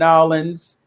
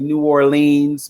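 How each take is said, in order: First: It is said the local Louisiana way. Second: It is said the northern, outsider way.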